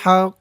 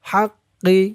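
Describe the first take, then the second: First: The word ends on a bare consonant. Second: The word ends with a short i vowel. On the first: The reader stops at this point. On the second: The reading continues without stopping.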